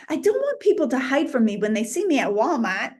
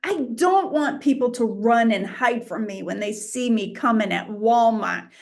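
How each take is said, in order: First: Quick New England accent. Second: Said in the usual way. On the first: Shown as a demonstration. Preacher repeats the Walmart line for laughs, in a New England accent. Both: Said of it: "I'll say it in the New England accent".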